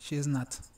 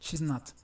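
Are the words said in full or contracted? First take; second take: full; contracted. First: Each of the three words is said separately. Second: She and is are joined into one syllable. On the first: "unimos pronombre y verbo to be" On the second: "Si queremos hacer la contracción"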